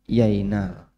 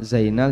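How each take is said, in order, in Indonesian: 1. Nama itu diawali dengan bunyi y. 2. Nama itu diawali dengan bunyi z.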